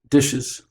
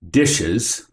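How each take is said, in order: First: It is a light, casual reminder. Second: It is a harsh, scolding reproach.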